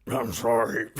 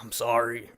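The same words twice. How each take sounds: First: Lightly voiced raspy mumbling smoker; a hint of a chain-smoker's rasp; gravelly smoker voice. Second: Said in the usual way. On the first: Vlogger mimics Daryl's mumbled apology, lightly raspy. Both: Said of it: "since it sounds like he smokes twelve packs a day".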